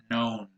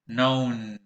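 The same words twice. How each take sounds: First: "known" said again as "nown", with a silent K. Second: "known" said as "nown" with a silent K. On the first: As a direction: repeat "known" with no K sound. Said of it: "so you say known". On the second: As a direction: drop the K in "known". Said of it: "Notice how the K is silent here". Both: Shown as a demonstration.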